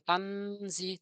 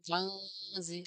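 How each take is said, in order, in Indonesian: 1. Bunyi n diucapkan dengan jelas. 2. Bunyi n samar dan bersengau. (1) "Bukan bukan tan bukan tanzi" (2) "tapi tanzi, ada suara samar"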